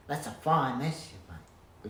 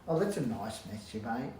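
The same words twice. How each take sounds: First: Louder and slow, fine stressed; drawn-out reproach leaning on fine; mild cross scolding. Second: Said in the usual way. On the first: Shown as a demonstration. Scolding a mess-maker, slow and louder. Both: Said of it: "which sounds better than".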